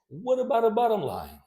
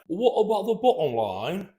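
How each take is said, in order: First: The T sounds are flapped, like a quick D. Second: The T sounds are pronounced as hard stops. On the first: The speaker calls it right. "No, it's" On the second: The speaker calls it wrong. "or it's not"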